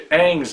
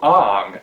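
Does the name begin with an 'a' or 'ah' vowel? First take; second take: a; ah. First: The name begins with a flat 'a' vowel. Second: The name begins with an open 'ah' vowel. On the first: The speaker calls it right. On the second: The speaker calls it wrong.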